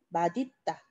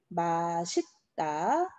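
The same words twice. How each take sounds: First: The middle consonant sounds like d. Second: The middle consonant sounds like s. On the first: This is the pronunciation by the principle. "이렇게 발음을 해줘야 돼" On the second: This is how many people say it. "요렇게 발음하시는 분들이 또 많아요"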